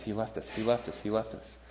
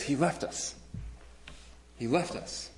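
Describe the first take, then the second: First: Much softer, numbed repeating; a hint of a scared girl murmuring over and over; hushed repeated plea. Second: Soft, frightened pleading, a bit higher; a hint of a scared girl begging; mild panicked plea. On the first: Frightened girl repeating to the hero, hushed. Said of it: "she can't say anything else". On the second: Girl in the movie clinging to the hero, lightly panicked. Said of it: "she's just freaking out".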